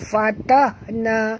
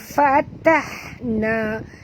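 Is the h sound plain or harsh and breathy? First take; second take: plain; harsh. First: The h is a plain, light h sound. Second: The h is a harsh, breathy throat sound. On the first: The speaker calls it wrong. "bukannya fatahna" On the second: The speaker calls it right. "huruf ha pedas"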